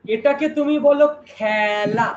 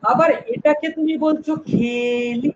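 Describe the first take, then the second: First: খেলা said with the open æ sound, slow; খেলা with open vowel. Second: খেলি said with a closed e sound, slow. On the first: Teacher slowly models খেলা with an open æ for the class. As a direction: say খেলা as khæla, not khela, drawn out. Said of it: "একার, বলছো". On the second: Teacher slowly models খেলি with a closed e for contrast. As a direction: say খেলি as kheli, the e kept closed. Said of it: "একবার হচ্ছে এ". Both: Shown as a demonstration.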